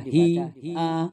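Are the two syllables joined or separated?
separated. The two syllables are split by a break. The speaker calls it wrong. "Tidak boleh dibaca"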